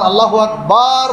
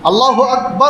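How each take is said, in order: First: The last vowel of akbar is drawn out long. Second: The last vowel of akbar is short. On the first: The meaning changes. The speaker calls it wrong. "বাটাকে টেনে বলা হবে" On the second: God is great. The speaker calls it right. "আল্লাহু আকবার অর্থ হলো আল্লাহ মহান"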